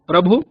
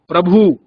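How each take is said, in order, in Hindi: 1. अंतिम स्वर ह्रस्व है। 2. अंतिम स्वर दीर्घ है। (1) "मानक रूप है" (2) "वहां दीर्घ स्वर का कर देते हैं"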